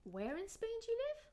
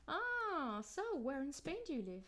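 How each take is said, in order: First: "Where" jumps high and the pitch stays up through "live"; high rising question. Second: "where" and "Spain" stressed, "do you live" falling away; falling question. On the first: Asking to be reminded where Natalie lives, high rise. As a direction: go up on "Where" and hold it high to the end. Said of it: "the intonation goes up on". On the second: New acquaintance asking at a party, falling question. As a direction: ask for new information, "do you live" going down. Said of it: "The intonation goes down". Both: Shown as a demonstration.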